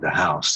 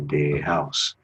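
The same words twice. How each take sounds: First: The word 'the' starts with a th sound. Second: The word 'the' starts with a d sound. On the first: "instead of saying the house" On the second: "they say de"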